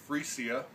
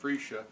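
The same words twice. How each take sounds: First: It is said in a Dutch-style pronunciation. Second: It is said in an American-style pronunciation. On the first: "the Dutch kind of pronounce it" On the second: "Americans kind of pull that all together"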